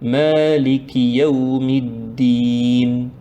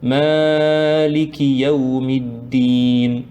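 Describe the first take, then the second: First: The long vowel is lengthened only slightly. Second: The long vowel is stretched far too much. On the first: The speaker calls it right. "sans trop, trop exagérer" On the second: The speaker calls it wrong. "Ça c'est trop"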